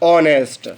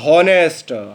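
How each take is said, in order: First: The word begins with a vowel sound. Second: The word begins with an h sound. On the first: The speaker calls it right. "इसे बेटा हम हॉनेस्ट नहीं ऑनेस्ट पढ़ते हैं" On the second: The speaker calls it wrong. "आपने उच्चारण किया हॉनेस्ट, हा से"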